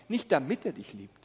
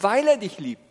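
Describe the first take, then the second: First: „damit“ stressed, whole phrase lower than usual; Betonung auf DAMIT. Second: „weil“ punched loud; Betonung auf WEIL. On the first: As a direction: set „damit“ aside in a lower, dropped voice. Rejected reason, set against weil. („damit“ betont, tiefer abgesetzt) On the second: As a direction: hit „weil“ hard as the true reason. Contrasts weil with damit. („weil“ laut und deutlich betont) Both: Shown as a demonstration.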